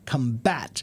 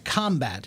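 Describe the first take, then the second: First: The stress is on the second syllable. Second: The stress is on the first syllable. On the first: It is a verb meaning to fight. "putting the strong syllable on the second syllable" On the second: It is a noun meaning fighting. "if I put the accent on the first syllable"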